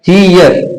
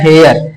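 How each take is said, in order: First: The vowel sounds like 'ee', as in here. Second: The vowel sounds like 'eh', as in hair. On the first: The speaker calls it right. "हेयर ना रह के हमारा रहेगा हीयर" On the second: The speaker calls it wrong. "इसको हमेशा पढ़ते आए हैं हेयर"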